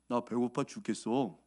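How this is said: It is said in a calm, dignified tone.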